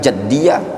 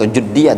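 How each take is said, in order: First: The first vowel is an a sound. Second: The first vowel is a u sound. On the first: "bukan jaddiyah" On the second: "atau juddiyah"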